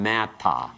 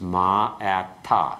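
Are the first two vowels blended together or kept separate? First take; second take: blended; separate. First: The first two vowels blend into one syllable. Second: The first two vowels stay separate, equally stressed. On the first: The speaker calls it wrong. "It doesn't become mata" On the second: The speaker calls it right. "the first two syllables will be the same force. It will not blend"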